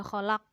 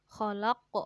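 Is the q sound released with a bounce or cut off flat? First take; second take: flat; bounced. First: The final q is cut off flat without echo. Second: The final q is released with a bouncing echo. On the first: The speaker calls it wrong. "Enggak boleh khalaq" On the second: The speaker calls it right. "harus tetap mem memantul"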